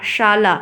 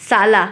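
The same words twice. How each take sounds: First: शाला said as "shaalaa"; sh sound. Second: शाला said as "saalaa"; plain s sound. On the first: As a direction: begin शाला with a clear hushing "sh". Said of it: "शाला यानी कि घर". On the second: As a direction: begin शाला with "s", not "sh". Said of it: "शाला पत्नी का भाई". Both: Shown as a demonstration.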